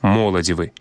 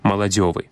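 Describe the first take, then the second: First: The stress falls on the first syllable. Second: The stress falls on the suffix syllable. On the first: "после натиску вытягнуть три склады" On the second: "форма с натиском на суффиксе"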